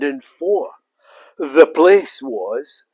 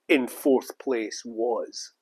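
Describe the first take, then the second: First: Fourth is broken into two parts, four the. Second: Fourth is said smoothly as one syllable. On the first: The speaker calls it wrong. "the artificial intelligence voice will come along and say" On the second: The speaker calls it right. "you'll have fourth as you know"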